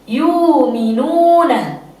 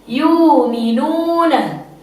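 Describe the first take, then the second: First: The glottal stop is replaced by a long u vowel. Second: The same.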